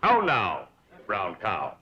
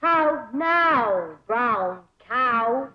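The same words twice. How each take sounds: First: "How now, brown cow?" crisp and rounded; teacher's diction drill. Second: "How now, brown cow?" copied with round vowels; country girl copying elocution; pupil imitating the drill. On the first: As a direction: model the vowels for her. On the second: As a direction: parrot the teacher's diction. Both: Shown as a demonstration. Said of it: "diction and intonation".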